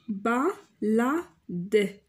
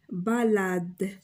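First: بالاد drawn out slowly, syllable by syllable; syllables stretched out very slowly. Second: Said in the usual way. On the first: Shown as a demonstration. Teacher stretches بالاد out for pupils, very slowly. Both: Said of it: "لا سيلاب اللي شفت فيها ال".

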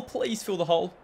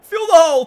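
First: Softer, begging under the breath; soft plea. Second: High, loud command; urgent yell. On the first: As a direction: plead quietly after yelling. Pleading after the yell. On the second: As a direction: bark it at the players. Yelling instructions at players. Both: Real, not acted.

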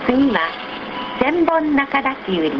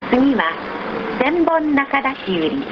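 The two takes are said the same way.

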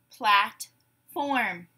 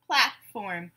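First: "Platform" in two separated beats; syllable by syllable. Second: Said in the usual way. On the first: Shown as a demonstration. Teacher gives syllables to blend, "Platform" broken apart. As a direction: say "Platform" slowly as plat, pause, form. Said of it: "I will say syllables in a word". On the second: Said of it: "You say the whole word".

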